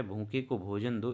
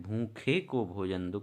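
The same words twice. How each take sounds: First: Said in the usual way. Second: Slow, leaning on भूखे; slow, stressed repeat. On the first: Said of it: "कह रहे". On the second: Shown as a demonstration. Teacher repeating the sentence for students, slow and deliberate. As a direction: say भूखे को भोजन दो slowly, stressing भूखे. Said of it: "कौन सा कारक है?".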